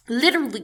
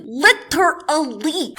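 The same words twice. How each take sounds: First: Said in the usual way. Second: Literally slowly broken into separate, punched syllables; emphatic LITERALLY. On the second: Real, not acted. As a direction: draw out literally syllable by syllable, higher. Repeats word drawn out for emphasis.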